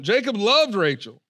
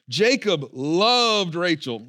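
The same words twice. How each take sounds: First: Said in the usual way. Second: Jacob loved Rachel read slow, loved drawn out; slow ironic reading. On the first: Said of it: "We keep going". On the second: Shown as a demonstration. Pastor reads loved slowly, hinting it's false. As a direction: drag out loved with irony. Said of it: "Not really".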